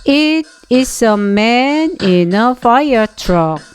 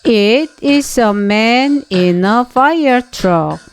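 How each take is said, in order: The two takes are said the same way.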